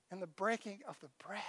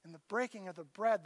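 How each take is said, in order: First: Hushed and reverent, letting bread fade softly; much softer, reverent hush; hushed reverence. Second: Said in the usual way. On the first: Acted. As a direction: drop almost to a whisper on the breaking of the bread. Solemn emphasis on the bread.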